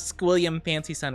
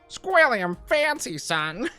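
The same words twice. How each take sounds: First: It is said in her normal voice. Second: It is said in a Squidward/Squilliam impression.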